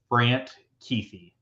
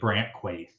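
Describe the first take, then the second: First: The surname has its actual, softer pronunciation. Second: The surname is said as a harder-sounding Quaith. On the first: This is how the name is really said. "so like it's pronounced like Kuithe" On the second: This makes the name sound tougher and cooler. "if you pronounce it like Brant Quaith"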